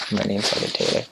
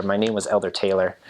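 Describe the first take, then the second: First: Ghanaian accent. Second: Said in the usual way. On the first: Shown as a demonstration. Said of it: "E R ends up sounding like an A". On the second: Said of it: "say it sort of in their accent".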